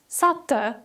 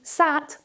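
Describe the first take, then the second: First: An extra vowel sound follows the final t. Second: The word ends cleanly on the t sound.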